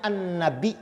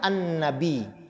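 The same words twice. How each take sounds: First: The word ends with a glottal stop. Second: The word ends without a glottal stop. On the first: "dibaca dengan hamzah" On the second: "tanpa hamzah"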